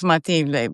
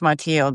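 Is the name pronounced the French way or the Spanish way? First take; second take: Spanish; French. First: The name is pronounced the Spanish way. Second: The name is pronounced the French way. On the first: "in Spanish, it's Mathilde" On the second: "but in French, it's Mathilde"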